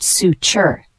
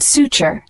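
First: Suture said slowly in two separate syllables; syllable-by-syllable pronunciation. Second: Said in the usual way. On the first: Shown as a demonstration. Teacher showing learners how it is pronounced, suture slowly in two parts. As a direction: sound out suture slowly, su then ture. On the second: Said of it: "The word suture".

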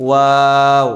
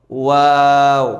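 First: ওয়াও formed between the lips, loud and held; first model of ওয়াও; rounded lip sound. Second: ওয়াও from the lips with a different colour, held long; second model of ওয়াও from the lips; repeated lip sound. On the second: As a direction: say ওয়াও again with rounded lips. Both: Shown as a demonstration. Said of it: "দুই ঠোঁটের ফাঁকা জায়গা থেকে".

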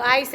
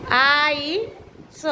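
First: Said in the usual way. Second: આઈસ very slowly as "aa-ee", pause, "sa"; sounded out. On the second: Shown as a demonstration. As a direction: stretch the vowels of આઈસ and detach the final sound. Teacher sounds out word for writing.

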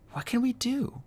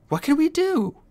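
First: High frantic worry; fretting under his breath; panicked. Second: High, louder frantic cry; panicked shout. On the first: Clay panicking. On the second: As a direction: panic boils over. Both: A narrator's reading.

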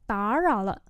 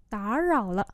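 The two takes are said the same way.

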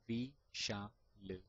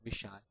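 First: V-sha-l picked apart sound by sound; split into parts. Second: Said in the usual way. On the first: Shown as a demonstration. Teacher to stammerers: V-sha-l broken into parts. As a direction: say V-sha-l piece by piece. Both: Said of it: "pick all the letters like".

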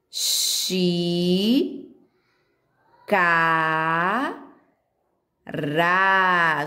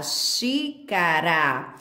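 First: Xi, Ca, Ra split into separate syllables with a pause after each. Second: Xícara said as one slow, joined word; whole word blended. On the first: Teacher spelling out a word for kids, syllable by syllable. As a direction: break Xi. Ca. Ra. apart slowly for children to copy. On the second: Teacher blending the syllables back into one word, slowly. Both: Shown as a demonstration. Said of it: "Vamos fazer ela pequenininha".

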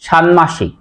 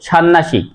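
First: ষান্মাসিক as shan-mashik with a clear m; careful shanmashik for ষান্মাসিক; correct pronunciation. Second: ষান্মাসিক as shan-nashik, double n and no m; common mispronunciation. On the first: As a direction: sound both n and m in ষান্মাসিক. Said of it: "আসলে উচ্চারণ হবে". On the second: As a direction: drop the m of ষান্মাসিক into a second n. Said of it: "আমরা অনেকেই উচ্চারণ করি". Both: Shown as a demonstration.

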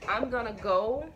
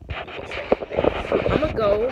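First: Said in the usual way. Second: Slow, voiceless and louder, forced out with effort; straining to get up. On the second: Real, not acted. Mother in a walking boot heaving herself up, slow voiceless strain. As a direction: push the words out as you heave yourself up.

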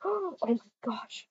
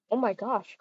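First: Breathless whispered gasp; gasp, then whisper it slowly; slow scandalized whisper. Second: Said in the usual way. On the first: Real, not acted. Gasped whisper at couple.

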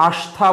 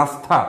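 First: আস্থা with a sh sound, ash-tha; wrong pronunciation. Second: আস্থা with a clear dental s, stha; correct pronunciation. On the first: Teacher shows the wrong আস্থা with sh. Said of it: "আস্থা বলবো না আমরা". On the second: Teacher gives the right আস্থা with dental s. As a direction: say আস্থা as s-tha, no sh. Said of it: "আস্থা, স উচ্চারণ". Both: Shown as a demonstration.

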